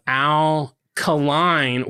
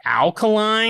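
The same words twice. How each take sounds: First: Said in the usual way. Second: "Alkaline?" said as one word, AL-ka-line, like the chemical, rising puzzled; misreading as a word. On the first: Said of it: "when I was reading this today". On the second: Retold or imitated. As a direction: read "Alkaline?" like battery alkaline, with a confused rise. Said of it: "I was like".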